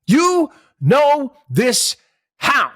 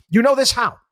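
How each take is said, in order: First: Slow, high and louder, stretched sarcasm; exaggerated scornful question; drawn-out mock disbelief. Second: Sharp sarcastic question, pitched higher and louder; quick scoffing question; incredulous. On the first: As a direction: drag it out like you can't believe it. Host repeats, drawn out mockingly. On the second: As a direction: challenge him mockingly. Host mocking economist's certainty. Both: Real, not acted.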